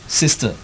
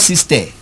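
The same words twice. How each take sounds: First: The final vowel is a short, weak schwa. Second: The final vowel is a full, open vowel. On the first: The speaker calls it right. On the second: The speaker calls it wrong.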